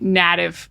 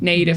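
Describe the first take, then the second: First: The first vowel is not an 'ay' sound. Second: The first vowel is an 'ay' sound. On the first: The speaker calls it wrong. "Students often say native, native instead of native" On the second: The speaker calls it right. "which is with an A sound"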